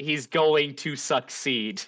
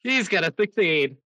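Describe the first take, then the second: First: Measured, carefully separated words; clarifying. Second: Quick, raised-pitch announcement; emphatic repeat. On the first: Game master to player who heard "a sixteen", clarifying. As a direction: spell out "going to" and "succeed" at an even pace. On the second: Game master to player who asked "he what", emphatic repeat. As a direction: say it fast, run the words together. Repeats after being misheard, run together. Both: Real, not acted.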